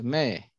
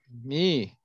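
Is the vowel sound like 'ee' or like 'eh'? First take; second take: eh; ee. First: The vowel sounds like 'eh'. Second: The vowel sounds like 'ee'. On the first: The speaker calls it right. "Y es me" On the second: The speaker calls it wrong. "mucha gente pronuncia esto mi"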